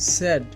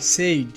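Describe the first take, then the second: First: The vowel sounds like a short 'e'. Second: The vowel sounds like 'ay'. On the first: The speaker calls it right. "এর সঠিক উচ্চারণটি হবে স্যাড" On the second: The speaker calls it wrong. "এটি ভুল উচ্চারণ"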